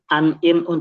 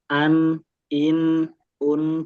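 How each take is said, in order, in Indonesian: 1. Bunyi n dipotong pendek tanpa mengalir. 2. Bunyi n ditahan lama dan mengalir. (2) "itu kan ada aliran itu"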